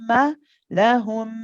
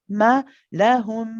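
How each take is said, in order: The two takes are said the same way.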